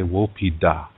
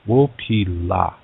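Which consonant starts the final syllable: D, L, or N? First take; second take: D; L. First: The final syllable begins with a d sound. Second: The final syllable begins with an l sound. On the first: This is the Dakota dialect form. "Dakota people say Wopida" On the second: This is the Lakota dialect form. "In Lakota, we have this expression"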